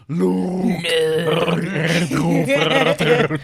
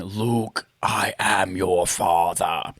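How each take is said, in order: First: Slow, loud, warbling fan voice. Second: Low, slow Vader line; deep menacing villain, slowly; Darth Vader voice. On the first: Pretend. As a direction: speak through a spinning fan. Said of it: "my Chewbacca mixed with my Darth Vader impression". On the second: Retold or imitated. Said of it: "the line".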